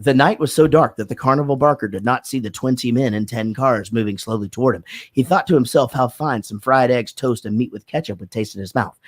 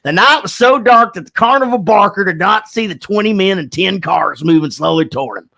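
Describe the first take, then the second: First: Careful, even diction drill; diction exercise read. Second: Hammed-up stage diction, higher and grand; over-enunciate like a pompous actor; mocking his own diction class with grand stage diction; exaggerated diction. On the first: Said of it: "you would have to read this thing". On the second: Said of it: "stand up and go". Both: Shown as a demonstration.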